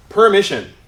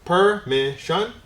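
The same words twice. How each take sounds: First: Said in the usual way. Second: Permission slowly as per - mi - shun; syllable by syllable. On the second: Shown as a demonstration. Teacher breaks the word up for students, Permission in slow syllables. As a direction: stretch Permission into three beats. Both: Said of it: "break them up into syllables".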